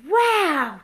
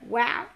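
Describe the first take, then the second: First: It is said with excited, surprised energy. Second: It is said calmly, without surprise. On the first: The achievement is surprising. The speaker calls it wrong. "Just don't say it with like wow" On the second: The achievement was expected. The speaker calls it right. "I'm not surprised at all"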